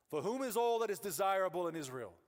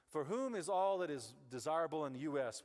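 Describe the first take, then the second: First: Grand archaic recitation, higher and louder; Shakespearean reading. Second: Said in the usual way. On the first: Shown as a demonstration. Pastor reading the cryptic verse, mock Shakespearean. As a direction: declaim it like an old stage play. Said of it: "It feels like Shakespeare". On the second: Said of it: "If I said that to you".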